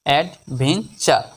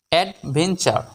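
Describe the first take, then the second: First: Slow, in three separate syllables; measured teaching breakdown. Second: Said in the usual way. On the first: Shown as a demonstration. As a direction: pause between the parts of the word. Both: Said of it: "এই শব্দটিকে ভাঙলে".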